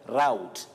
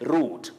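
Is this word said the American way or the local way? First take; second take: American; local. First: It is said with an American pronunciation. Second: It is said with the local pronunciation. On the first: "You would hear of route in American English" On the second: "But locally we know it as route"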